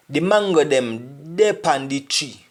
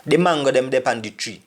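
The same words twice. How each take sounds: First: Slow, spaced-out Jamaican Patois; slowed for learners. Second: Quick, run-together Patois; fast like a Jamaican. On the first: Teacher helping learners pick out Patois words, slowed down. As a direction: say "dey pan the tree" slowly, word by word. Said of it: "I'm trying to speak slowly". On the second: Teacher showing learners how fast Jamaicans talk, fast. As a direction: rattle the whole sentence off at native speed. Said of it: "if I speak like Jamaican so fast". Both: Shown as a demonstration.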